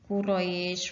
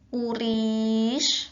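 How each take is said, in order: First: The vowel after the r is a. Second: The vowel after the r is i.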